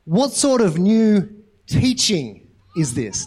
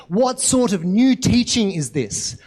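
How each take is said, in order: First: Very slow, spaced-out question, timbre put on; deliberate question. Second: Slow, mildly excited question. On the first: The people's weird response to the healing, slowly quoted. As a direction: draw out each word of the crowd's reaction. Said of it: "But their response is". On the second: A narrator's reading. Crowd discussing what had happened, mildly excited. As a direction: read it with a touch of excitement, drawn out. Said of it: "they asked excitedly".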